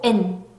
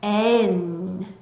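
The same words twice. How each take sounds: First: The sounds come out together in one burst. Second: The sounds come out separately, one by one. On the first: The speaker calls it wrong. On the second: The speaker calls it right.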